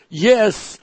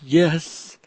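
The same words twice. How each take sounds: First: It is said intensely. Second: It is said calmly.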